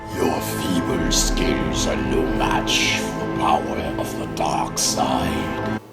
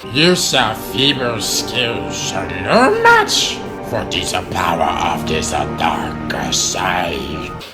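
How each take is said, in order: First: It is said in a menacing, terrifying voice. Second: It is said in a goofy Jar Jar voice.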